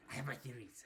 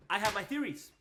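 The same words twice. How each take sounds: First: Low, hushed repeat; much softer and lower, as if scheming; conspiratorial aside. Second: Said in the usual way. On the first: Acted. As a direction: drop it to a secretive murmur. Repeats line, sneaky low version.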